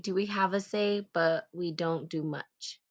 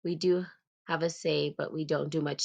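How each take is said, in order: First: "Do we have a say, but we don't do much?" read as a rising question; tentative questioning read; questioning tune. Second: "We do have a say, but we don't do much." stated with a falling close; corrected, falling statement; firm statement. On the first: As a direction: ask it, puzzled, as a question. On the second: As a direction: settle it firmly as a fact. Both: Shown as a demonstration. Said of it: "That's right".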